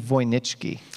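The surname is pronounced in a Polish way. "The correct, actually, Polish pronunciation"

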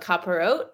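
It ends with a t sound, Israeli style.

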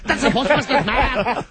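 It is said in a put-on leprechaun voice.

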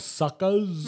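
The R sound at the end is dropped. "Because the mob doesn't pronounce R's"

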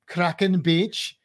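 It is said in a put-on Welsh accent.

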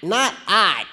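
It is said in a noisy duck's voice.

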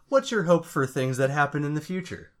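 It is said in a confident, authoritative way.

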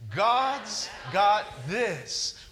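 It is said with strong, believing conviction.

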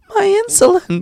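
It is said in a strained, high child's voice. "I almost couldn't say that... I can't go high pitched... it's hard to do the kids' voices"

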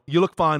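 It is said quickly and offhandedly. The appearance is merely acceptable. "Because I'm in a hurry"

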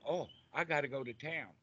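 It sounds happy and cheerful.

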